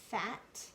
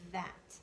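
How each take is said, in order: First: The first sound is an unvoiced breathy th. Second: The first sound is a voiced buzzing th. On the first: The speaker calls it wrong. "Let's try it unvoiced first" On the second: The speaker calls it right. "Sounds right when you make it make it voiced or use the buzzing sound"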